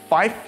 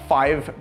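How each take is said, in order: First: The word ends with an f sound. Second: The word ends with a v sound. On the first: "becomes fife" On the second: "numbers like five"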